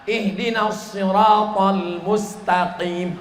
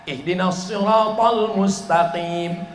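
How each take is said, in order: Both takes have the same delivery.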